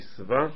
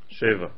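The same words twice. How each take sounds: First: The word is pronounced sava, with a-e vowels. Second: The word is pronounced sheva, with e-a vowels. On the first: The word means satiated, as written in the verse. "אל תיקי שבע" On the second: The word means seven, as in seven days. "אלא שבע"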